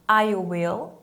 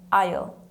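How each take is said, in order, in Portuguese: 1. A frase é dita como duas palavras completas. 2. A frase é encurtada em uma sílaba.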